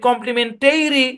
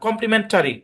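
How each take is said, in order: First: The '-tary' vowel is a full vowel. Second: The '-tary' vowel is a reduced schwa. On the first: The speaker calls it wrong. "আপনি যদি কমপ্লিমেন্টারি বলেন হবে না" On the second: The speaker calls it right. "এখানে সোয়া sound apply হয়েছে"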